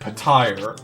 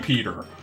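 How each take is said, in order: First: The second syllable sounds like 'tire'. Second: The second syllable sounds like 'ter'. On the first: The speaker calls it wrong. "audiobook pronounces it Petire" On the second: The speaker calls it right. "It is so obviously just supposed to be Fantasy Peter"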